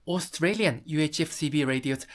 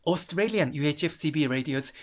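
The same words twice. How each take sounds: The two takes are said the same way.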